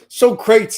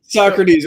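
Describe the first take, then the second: First: The name has a regional Texan pronunciation. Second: The name has its usual standard pronunciation.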